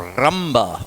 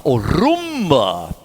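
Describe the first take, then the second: First: Said in the usual way. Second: Rumba with a slow, rolled R at the start. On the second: Shown as a demonstration. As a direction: roll the R of rumba, stretched out slowly. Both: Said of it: "Can you roll your R?".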